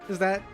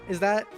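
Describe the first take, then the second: The two takes are said the same way.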